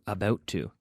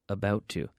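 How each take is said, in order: Both takes have the same delivery.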